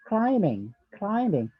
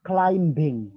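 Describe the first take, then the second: First: "climbing" said as "climing", with no b sound; "climbing" with a silent b. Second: "climbing" said slowly with a clear b, "climb-bing"; "climbing" with the b pronounced; wrong b-sounded demo. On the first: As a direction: model "climbing" with the b kept silent. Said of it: "B-nya itu harus sedikit silent". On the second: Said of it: "not climbing". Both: Shown as a demonstration.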